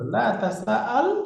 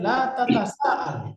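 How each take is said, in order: First: The verb begins with a single 'ta' syllable. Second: The verb begins with a doubled 'ta' syllable. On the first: "লা যুক্ত করে দিলেই হয়ে গেল লা তাসাআল" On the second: "আরেকটা তা যুক্ত করে লা তাতাসাআল"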